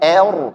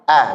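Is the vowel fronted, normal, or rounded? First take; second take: fronted; normal. First: The vowel is thinned too far toward e. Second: The vowel is a plain, ordinary a sound. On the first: The speaker calls it wrong. "jangan berlebihan tipiskan, salah" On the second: The speaker calls it right. "a biasa"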